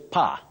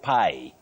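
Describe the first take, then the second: First: The vowel is a short open 'ah'. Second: The vowel glides like the word 'pie'. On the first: The speaker calls it right. "you say pa" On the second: The speaker calls it wrong. "not pie"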